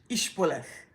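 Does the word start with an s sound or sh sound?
sh. The word begins with an sh sound.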